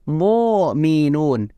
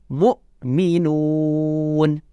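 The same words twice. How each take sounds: First: The middle consonant sounds like a throaty ain. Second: The middle consonant is a pressed glottal stop. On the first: The speaker calls it wrong. "tidak boleh mu'minun ... Tidak boleh berubah jadi ain" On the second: The speaker calls it right. "dia harus ditekan"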